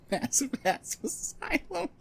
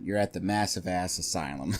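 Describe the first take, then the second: First: High giggly voice; giggling through the words; being tickled. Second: Said in the usual way. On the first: Real, not acted. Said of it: "that's tickling me so much". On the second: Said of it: "that's tickling me".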